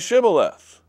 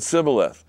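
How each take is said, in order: First: The word begins with an SH sound. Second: The word begins with a plain S sound. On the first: The speaker can cross the river. The speaker calls it right. "the other way as an S H sound" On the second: The speaker is revealed as an Ephraimite. The speaker calls it wrong. "the Ephraimites could not get that S H sound"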